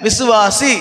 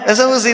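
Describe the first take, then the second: First: The middle vowels are full and clear. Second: The middle vowels are short and slurred. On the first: The speaker calls it right. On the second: The speaker calls it wrong. "விசவசி இல்ல"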